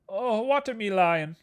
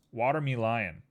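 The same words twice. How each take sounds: First: High, drawn-out playful cry; slow it down and pitch it way up; mock-dramatic high exclamation; put-on voice. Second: Said in the usual way. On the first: Playfully repeats the misspelt name.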